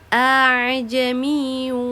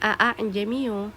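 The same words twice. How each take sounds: First: The second hamza is softened and blurred. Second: The second hamza is pronounced fully and clearly. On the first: The speaker calls it right. "hamzah yang keduanya harus diringankan atau disamarkan" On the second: The speaker calls it wrong. "kita tidak boleh membacanya a'jamiyyu"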